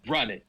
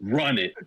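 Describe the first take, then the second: First: It is said angrily and dramatically. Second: It is said mildly, without much anger.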